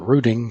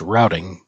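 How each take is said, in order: First: Routing is said with the telephone-industry vowel. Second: Routing is said with the narrator's different vowel. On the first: This is the usage among phone people. The speaker calls it right. "the former pronunciation is what's used" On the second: This is how the narrator said it. The speaker calls it wrong. "he pronounced routing"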